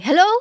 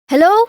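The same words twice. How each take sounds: First: The voice is uncompressed and clips into distortion. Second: The voice is compressed and sounds clean. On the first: The speaker calls it wrong. "switch off the compression ... you can see it's clipping" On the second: The speaker calls it right. "you can see that it's not clipping"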